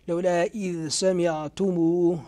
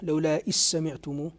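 First: The dh sound is pronounced clearly before the s. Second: The dh sound is merged into the following s. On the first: "من قرأ هذه الذال من السبعة بالإظهار" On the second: "ومن ضامها"

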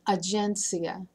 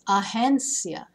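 First: The g is said as a hard sound. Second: The g is said as a breathy h. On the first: The speaker calls it wrong. "It's not agencia" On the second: The speaker calls it right. "the G has like a breathy H sound"

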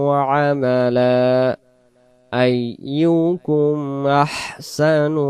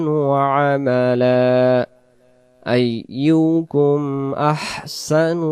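No difference in how they are said.

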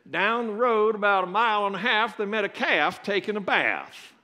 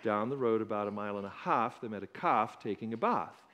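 First: It is said in a West Virginia accent. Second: It is said in a South African accent.

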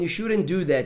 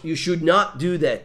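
First: The negative is contracted into one short word. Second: The negative is said in full, stressing not. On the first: A normal negative statement. "Você usa a negativa contraída" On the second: The negative is given stronger emphasis. "O not dá aquele ênfase maior na negativa"

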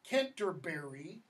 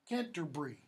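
First: The word is said with four syllables. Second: The word is said with three syllables. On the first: "American English, Canterbury, one, two, three, four syllables" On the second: "British English, Canterbury, three syllables"

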